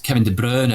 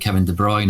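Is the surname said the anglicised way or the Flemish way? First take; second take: Flemish; anglicised. First: The surname is said with Flemish pronunciation. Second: The surname is said with anglicised pronunciation. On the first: This is how the player's own language says it. "is the correct pronunciation of his Flemish" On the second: This version fits the fans' stadium chant. "the fans all go with"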